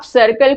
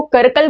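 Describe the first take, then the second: First: Said in the usual way. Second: करकल, circle begun with a k; wrong first consonant. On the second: Shown as a demonstration. Teacher showing an embarrassing mistake, करकल with a hard k for circle. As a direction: swap the opening s of circle for k, करकल. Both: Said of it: "सर्कल को करकल बोल दिए".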